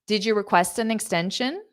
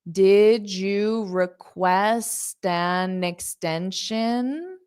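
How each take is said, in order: First: The sentence is spoken quickly. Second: The sentence is spoken slowly. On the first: "I'll say it fast" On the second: "I'll say it slow and then fast"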